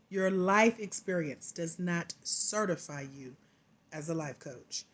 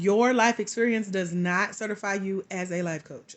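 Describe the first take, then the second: First: It is said slowly and deliberately. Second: It is said at a normal pace.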